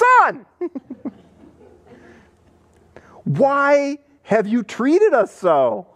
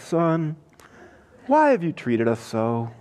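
First: It is said in an upset, distressed tone. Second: It is said in a light, cheerful tone. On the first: The mother is distressed by the search. The speaker calls it right. "I think it's more like this" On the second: The mother is pleased about the search. The speaker calls it wrong. "I don't think that's her tone"

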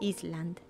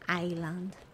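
First: The word is pronounced the Spanish way. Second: The word is pronounced the English way. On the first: The speaker calls it wrong. "that's how you would, I guess, pronounce it in Spanish" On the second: The speaker calls it right. "But I know now. I know better. I know it's island"

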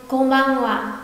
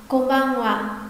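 No difference in how they are said.

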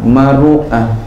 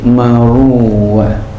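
First: A glottal stop sits before the final syllable. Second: A w sound sits before the final syllable. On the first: "Bil hamzi dengan hamzah" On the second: "menggantikannya ya hamzah wawan dengan wawu"

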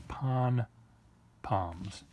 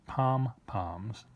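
First: The first syllable ends in an n sound. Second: The first syllable ends in an m sound. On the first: The speaker calls it right. "They're pon-poms. P-O-N-P-O-M-S" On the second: The speaker calls it wrong. "They're not pom-poms"

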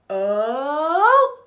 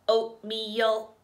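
First: It is said in a fun, playful voice. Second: It is said in a flat robot voice.

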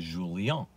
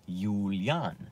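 First: The name is said with a Portuguese pronunciation. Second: The name is said with a German pronunciation. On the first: "If you go to Portugal, they'll say Julian" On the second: "which is how the Germans pronounce Julian"

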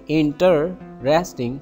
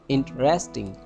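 First: The middle vowel is pronounced fully. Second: The middle vowel is dropped. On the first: The speaker calls it wrong. "don't say interesting" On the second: The speaker calls it right. "say interesting"

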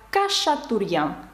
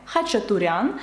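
First: It begins with k and has an sh sound. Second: It begins with kh and has a ch sound. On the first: This is how French speakers pronounce the name. "французи вимовляють як Кашатурян, тому що в них немає звуків «х» та «ч»" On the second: This is the name's original pronunciation. "мене звати [name]"

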